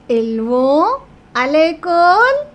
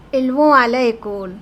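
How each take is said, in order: First: Whole line higher and louder, "l'école" rising; rising question tune. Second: Said in the usual way. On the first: Shown as a demonstration. Teacher showing students how to raise the voice. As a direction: pitch it up and loud like a question. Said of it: "So you raised your voice". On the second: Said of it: "Second example".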